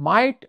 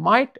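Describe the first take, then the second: No difference in how they are said.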